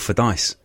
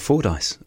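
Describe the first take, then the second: First: The name is said the local Aberdeenshire way. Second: The name is said in a standard way.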